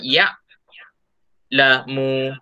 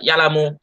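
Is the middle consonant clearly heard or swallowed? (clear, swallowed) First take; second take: clear; swallowed. First: Read unhurried, the middle consonant is clearly heard. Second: Read quickly, the middle consonant is barely heard. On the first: The speaker calls it right. "kena sebut juga ya lamu" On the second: The speaker calls it wrong. "tak boleh baca ya lamu. Ha, nanti tidak dengar jelas bunyi ain yang dimatikan"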